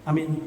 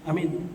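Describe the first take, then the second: Both takes have the same delivery.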